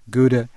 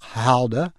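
First: The word starts with a hard g sound. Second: The word starts with a guttural sound. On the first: This is how it is said in the US. "in the U.S. of A., Gouda is just fine" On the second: This is how it is said in Holland. "in Holland, indeed, it is Gouda"

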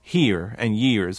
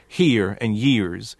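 First: The R sounds at the word ends are pronounced strongly. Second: The same.

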